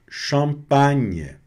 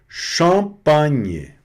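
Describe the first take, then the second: The two takes are said the same way.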